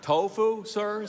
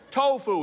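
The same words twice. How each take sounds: First: TOFU repeated as a polite query, SIR left hanging; puzzled, polite TOFU, SIR; questioning echo. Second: Higher, louder burst of triumph; triumphant. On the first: Manager queries Dave's triumphant answer. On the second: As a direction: announce it as the winning answer. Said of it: "he said triumphantly". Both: A narrator's reading.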